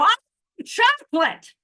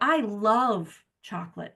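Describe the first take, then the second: First: It is screamed very loudly and excitedly. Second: It is said with calmer, moderate energy.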